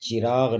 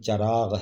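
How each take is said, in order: First: The first vowel is an 'i' sound. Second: The first vowel is an 'a' sound. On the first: The speaker calls it wrong. "चिराग नहीं" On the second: The speaker calls it right. "चराग है"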